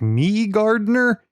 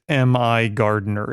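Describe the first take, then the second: First: The first part sounds like the word me. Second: The first part is spelled out as letters. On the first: The speaker calls it wrong. "I didn't know how to pronounce it. I was like" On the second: The speaker calls it right. "the proprietor pronounces it M I Gardner"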